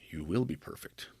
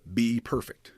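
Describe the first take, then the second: First: "You will be perfect." low and soft, leaning on "will"; gentle promise, stress on "will". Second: "Be perfect." said plainly as a command; imperative be perfect. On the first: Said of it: "It says". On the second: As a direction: give "Be perfect." as a flat order. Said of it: "It does not actually say". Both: Shown as a demonstration.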